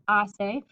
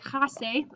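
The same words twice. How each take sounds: First: The h at the start is silent. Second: The h at the start is pronounced. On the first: The speaker calls it right. "the H is silent" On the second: The speaker calls it wrong. "please don't say hace"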